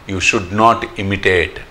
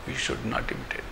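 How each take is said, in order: First: Very slow, weighty teaching line; slow emphatic. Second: Whispered, breathy echo of the lesson; whispered repeat. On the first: Teacher warning devotees against imitation, slow. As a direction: spell out each word slowly. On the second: Teacher repeating the warning to devotees, whispered. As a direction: whisper it back to sink in. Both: Shown as a demonstration. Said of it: "repeated lesson line".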